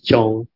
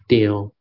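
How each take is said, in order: First: The syllable sounds like 'chong', Hakka style. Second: The syllable sounds like 'tio', Hokkien style. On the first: "In Hakka is Chong" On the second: "In Hokkien, they call it Tio"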